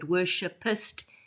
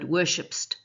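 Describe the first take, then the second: First: The word is said with three syllables. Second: The word is said with two syllables. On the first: "the three-syllable word" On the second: "a two-syllable word"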